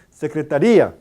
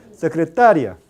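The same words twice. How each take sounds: First: Secretaría with stress on the final í, said loud and drawn; hiato pronunciation. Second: Secretaria with stress on TA and a short, gliding ia; diphthong pronunciation. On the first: Teacher to class contrasting hiatus, loud pronunciation. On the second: Teacher to class, diphthong contrast, loud. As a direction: say Secretaria with the i as a quick semivowel. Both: Shown as a demonstration. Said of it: "Esto es hiato".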